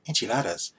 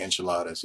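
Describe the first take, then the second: First: Enchiladas in an overdone Spanish accent; exaggerated Spanish accent. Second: Said in the usual way. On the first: Shown as a demonstration. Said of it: "You don't have to say enchiladas". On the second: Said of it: "you can just say enchiladas".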